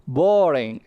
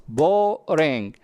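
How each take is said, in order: First: Said in the usual way. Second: "Boring" drawn out in two parts, bo-ring; syllable by syllable. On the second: Shown as a demonstration. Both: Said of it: "two syllables".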